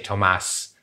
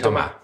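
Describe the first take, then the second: First: The name is said with German pronunciation. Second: The name is said with French pronunciation. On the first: "in German, you say Thomas" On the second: "But in French, you say Thomas"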